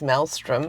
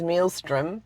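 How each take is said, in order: First: The first syllable sounds like 'mail'. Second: The first syllable sounds like 'meal'. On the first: The speaker calls it right. "but it's maelstrom" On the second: The speaker calls it wrong. "first of all, I thought it was mealstrom"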